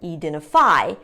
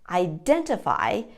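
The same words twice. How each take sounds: First: The stress is not on the second syllable. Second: The stress is on the second syllable. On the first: The speaker calls it wrong. "putting the syllable stress in the wrong place" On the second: The speaker calls it right. "the syllable stress is on the second syllable"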